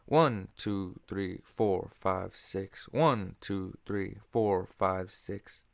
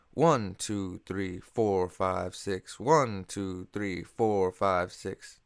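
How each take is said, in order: First: Same six eight count pattern; stress on one and four. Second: Six eight count, two pulses per bar; stress on one and four. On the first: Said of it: "counted just like six eight". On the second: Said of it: "beat four gets a little more emphasis". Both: Shown as a demonstration.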